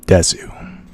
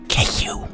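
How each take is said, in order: First: It is said in a deeper voice. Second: It is said in a whisper.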